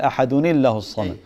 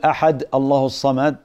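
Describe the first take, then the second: First: Ahad ends with an added 'ni' before Allah. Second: Ahad runs into Allah with no 'n' sound. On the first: The nunation is kept in connected recitation. The speaker calls it right. "ما تحذف التنوين، تقول أحدني الله الصمد. هذا الأحوط" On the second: The nunation is dropped in connected recitation. The speaker calls it wrong. "ما تقول أحد الله الصمد"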